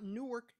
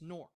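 First: The name is pronounced the non-local way. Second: The name is pronounced the local way. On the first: The speaker calls it wrong. "not Newark" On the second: The speaker calls it right. "it's Newark"

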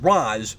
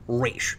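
First: It uses the Batman Begins film pronunciation. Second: It uses the traditional animated-series pronunciation. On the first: "like in Batman Begins" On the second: "like the animated series, and the way it's traditionally considered correct"

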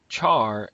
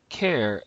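First: It begins with ch and rhymes with car. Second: It begins with k and rhymes with air. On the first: "as in charcoal" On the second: "as in character"

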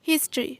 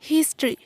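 No difference in how they are said.

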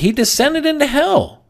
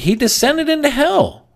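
First: It is said in a bold, triumphant tone. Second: The same.

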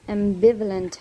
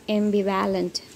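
First: The 'va' syllable has a reduced 'uh' vowel. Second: The 'va' syllable has a full 'a' vowel. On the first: The speaker calls it right. "V-U-H sound" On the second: The speaker calls it wrong. "They don't say V-A sound"

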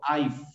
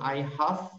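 First: Have is shortened and joined onto I. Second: Have is said as a full separate word. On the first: "cuando yo lo escribo abreviado con un apóstrofe, entonces digo I've" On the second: "Cuando yo digo I have, con una F de foca"

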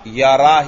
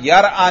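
First: No glottal stop; the vowel follows the r directly. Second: A glottal stop is heard before the final vowel. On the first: The speaker calls it right. "यरा ही पढ़ना पड़ेगा" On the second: The speaker calls it wrong. "आप यहां यर आ नहीं पढ़ सकते"

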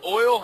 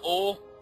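First: The word has a standard pronunciation. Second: The word has a regional pronunciation. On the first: This is how the speaker says it. The speaker calls it right. "at least I say oil" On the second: This is how the speaker avoids saying it. The speaker calls it wrong. "and not oil"

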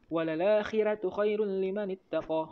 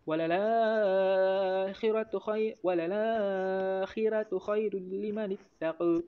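First: The final vowel is a fully open a. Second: The final vowel is between a and i.

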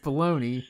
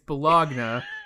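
First: It is said buh-LOH-nee, ending 'nee'. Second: It is said following the spelling, ending 'nya'. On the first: The speaker calls it right. "but it's baloney" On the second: The speaker calls it wrong. "I always say that word purposely wrong"

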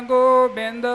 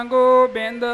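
No difference in how they are said.

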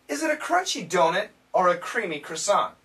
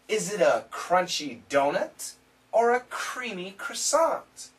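First: The sentence is spoken at a fast pace. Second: The sentence is spoken at a slow pace. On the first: "Now let's try it again a little bit faster" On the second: "We'll go at a slow pace"

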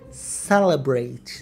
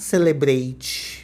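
First: It is pronounced in an English way. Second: It is pronounced in a Portuguese-like way. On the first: The speaker calls it right. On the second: The speaker calls it wrong.

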